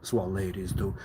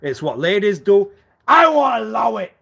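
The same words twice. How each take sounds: First: Said in the usual way. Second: High, loud, indignant mimicry; loud mock outrage. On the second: Mocking the ladies' excuse with a loud, high outburst. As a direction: shout the excuse back in a higher voice. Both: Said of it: "And you know why I will talk like that then".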